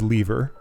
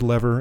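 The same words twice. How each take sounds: First: The first vowel is long, as in leave. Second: The first vowel is short, as in let. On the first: "they pronounce lever as lever ... not like someone who leaves" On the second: "what I would say as lever"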